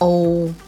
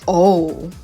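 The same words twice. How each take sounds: First: It is said flat and neutral. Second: It is said like a sudden realization. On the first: The speaker calls it right. "just neutral" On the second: The speaker calls it wrong. "not realization"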